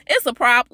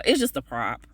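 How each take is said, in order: First: "It's a prop" punched louder, higher; louder emphasis. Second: Said in the usual way. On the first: Real, not acted. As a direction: insist it's only a prop.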